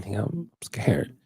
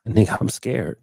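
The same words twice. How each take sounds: First: Hushed, slowed whisper of a confession; a nervous man whispers his fear to his friend; scared whisper. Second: Said in the usual way. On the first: Retold or imitated. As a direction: whisper it like you're scared to admit it. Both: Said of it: "I said, just like that".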